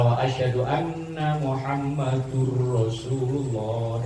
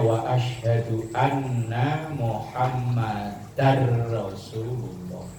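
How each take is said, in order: First: Muhammad ends with a u vowel sound. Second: Muhammad ends with an a vowel sound. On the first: The speaker calls it wrong. "dari sisi bahasa keliru" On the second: The speaker calls it right. "Maka bacanya"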